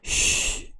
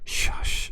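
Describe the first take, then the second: First: It is said as one bare hissing sound. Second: It is said with a vowel between hisses. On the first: "쉬 이렇게 읽기도 합니다" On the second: "이거 합치면 샤시 이건데"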